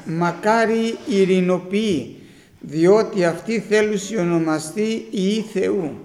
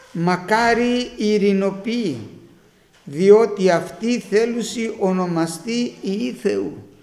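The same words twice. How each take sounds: Both takes have the same delivery.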